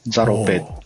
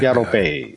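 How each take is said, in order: First: The name begins with a z sound. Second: The name begins with a y sound. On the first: "ホーチミンの人はザロとは発音せず" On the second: "ヤロって発音するんですけど。"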